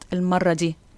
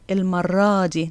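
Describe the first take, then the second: First: The noun's feminine ending is not extended. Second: The noun's feminine ending is extended. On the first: The speaker calls it wrong. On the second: The speaker calls it right. "this time we say"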